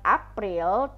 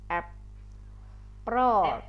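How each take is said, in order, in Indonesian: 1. Dibaca sesuai ejaannya, gaya Indonesia. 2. Diucapkan dengan bunyi vokal gaya Inggris. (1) "dibacanya bukan April" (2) "kalau dalam bahasa Indonesia kayak bunyinya itu seperti ini"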